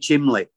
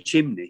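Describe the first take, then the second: First: The middle consonant is an l sound. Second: The middle consonant is an n sound. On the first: The speaker calls it right. "say chimley, you know, and all these Manchester little bits" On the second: The speaker calls it wrong. "don't say chimney"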